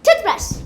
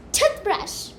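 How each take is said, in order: First: "Toothbrush" with TOOTH loud and high, brush falling; stress on TOOTH. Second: Said in the usual way. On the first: Shown as a demonstration. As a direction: start on top of TOOTH and glide down on brush. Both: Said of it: "Like this".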